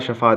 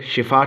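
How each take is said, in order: First: شفا said "shafa", short a in the first syllable; mistaken shafa. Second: شفا said "shifa", short i in the first syllable; shifa with zer. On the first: Retold or imitated. Teacher quotes people's common mistake, "shafa" for شفا. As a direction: put an a after the sh in شفا. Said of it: "اکثر میں نے لوگوں سے سنا". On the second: Shown as a demonstration. Teacher gives the correct word for healing, "shifa" for شفا. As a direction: put an i after the sh in شفا. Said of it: "زیر کے ساتھ جو صحیح ہے".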